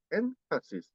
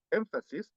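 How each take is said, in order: First: "énfasis" split as "en / fasis"; N kept as N. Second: "énfasis" joined up as "emfasis". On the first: Teacher showing what Koreans say, "énfasis" broken after N. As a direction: hold a clear N in "énfasis", then break. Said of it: "N debe pronunciar con, con, con, como N". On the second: Teacher giving the expected form, "énfasis" with an M. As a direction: run "énfasis" together with M before F. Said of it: "En vez de énfasis". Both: Shown as a demonstration.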